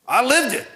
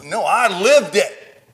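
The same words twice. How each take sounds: First: "lived" cried out, much higher and louder; lived shouted high. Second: Lived drawn out and loud; stress on lived. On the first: Preacher repeating to congregation, shouted lived. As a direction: fire the word "lived" up high. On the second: Preacher to congregation, slow stressed lived. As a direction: lean hard on "lived". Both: Shown as a demonstration.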